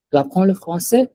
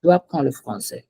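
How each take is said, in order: First: "Tu apprends le français?" with pitch climbing on "français"; same words turned into a question, higher and lifting on "français"; rising question tune. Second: "Tu apprends le français." with pitch dropping on "français"; no lift at the end of "français"; falling statement tune. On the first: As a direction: ask it by raising the voice at the end. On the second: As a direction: state it as plain fact, closing like a full stop. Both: Shown as a demonstration. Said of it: "There's a difference in the tone".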